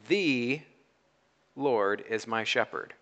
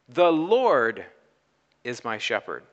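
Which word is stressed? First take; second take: The; Lord. First: The stress is on "The". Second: The stress is on "Lord".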